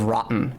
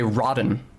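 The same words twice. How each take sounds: First: The middle consonant is a glottal stop. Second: The middle consonant is a D sound. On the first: The speaker calls it right. "instead of a glottal stop" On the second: The speaker calls it wrong. "would use a D sound instead of a glottal stop"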